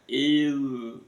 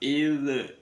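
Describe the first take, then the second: First: The final dh is held without any release. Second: The final dh is released with a bouncing echo. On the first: The speaker calls it right. "Ditahan sampai eh, suara zalnya hilang" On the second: The speaker calls it wrong. "Kalau dilepas, ... Jadi kol-kola"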